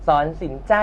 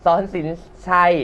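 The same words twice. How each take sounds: First: Misspoken name สอนสินใจ ending in ใจ; wrong name. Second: สอนสิน ชัย said properly, ending in ชัย; careful corrected สอนสิน ชัย; corrected name. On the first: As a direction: says สอนสินใจ with ใจ instead of ชัย. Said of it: "เอ้ย". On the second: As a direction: fix the slip to สอนสิน ชัย. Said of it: "ออกเสียงให้ถูก". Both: Real, not acted.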